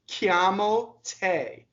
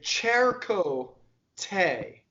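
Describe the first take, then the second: First: The t is unaspirated, Italian style. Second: The t is strongly aspirated, English style. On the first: The speaker calls it right. "not as aspirated" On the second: The speaker calls it wrong. "an English speaker would say"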